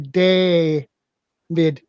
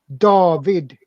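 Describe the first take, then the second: First: The name is said with English pronunciation. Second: The name is said with Swedish pronunciation. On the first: "the English pronounce you pronounce David as day a David" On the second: "but we pronounce it David"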